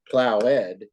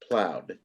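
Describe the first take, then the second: First: The word is said with two syllables. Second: The word is said with one syllable. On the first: The speaker calls it wrong. "It's not plowed" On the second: The speaker calls it right. "it's just one also"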